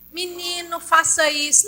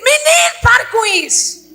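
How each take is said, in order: First: It is said quietly and mildly. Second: It is shouted loudly.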